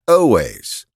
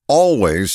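First: It is said like 'o-ways', without the L. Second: It is said like 'all ways', with the L. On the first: The speaker calls it wrong. "not in o-ways" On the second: The speaker calls it right. "the word always means in all ways"

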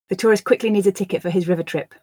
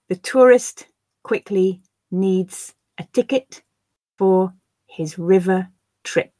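First: The sentence is said at a natural pace. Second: The sentence is said slowly. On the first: "I'll then read them at a more natural pace" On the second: "I will read the sentences first slowly for you to grasp the words"

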